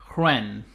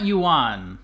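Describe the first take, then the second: First: It is said as one syllable, like 'wren'. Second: It is said as two syllables, like 'you-an'. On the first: The speaker calls it right. "They pronounce it like W R E N" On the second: The speaker calls it wrong. "It's not yuan. That's not how they say it"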